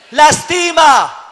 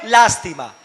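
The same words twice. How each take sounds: First: Lastima slow and shouted, stress on the middle syllable, as the verb; la-TI-ma, drawn out and loud. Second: Lástima with stress on the first syllable, as the noun; Lástima, noun, stressed LÁS. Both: Shown as a demonstration. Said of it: "La lástima lastima".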